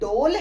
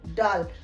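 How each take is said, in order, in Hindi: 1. स्वर गोल 'oh' ध्वनि है। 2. स्वर खुला 'ah' ध्वनि है। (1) "ये डोल नहीं" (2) "बल्कि ये है डाल"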